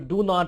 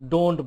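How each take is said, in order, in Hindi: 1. यह दो पूरे शब्दों की तरह बोला जाता है। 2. यह एक संक्षिप्त (contracted) शब्द की तरह बोला जाता है। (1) "जो डू नॉट है" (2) "उसको डोंट बोलते हैं"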